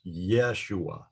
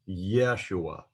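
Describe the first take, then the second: No difference in how they are said.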